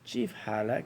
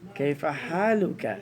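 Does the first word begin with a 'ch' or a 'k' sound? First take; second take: ch; k. First: The first word begins with a 'ch' sound. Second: The first word begins with a 'k' sound. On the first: This is how it is said in a Palestinian dialect. "The Palestinians will say ... the kaf ... they will sound as a sheen" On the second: This is the standard way of saying it. "That's the right way"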